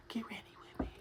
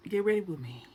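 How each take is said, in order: First: Hushed, softer repeat; whispering. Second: Said in the usual way. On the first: Shown as a demonstration. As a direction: whisper it to the camera.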